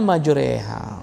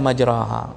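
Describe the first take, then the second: First: The vowel after r leans toward e. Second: The vowel after r is a plain a.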